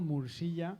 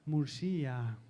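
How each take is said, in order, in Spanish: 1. La y se pronuncia como un sonido consonántico. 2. La y se pronuncia como una i vocal larga. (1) "tal como está escrito" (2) "la lectura sería como una I alargada"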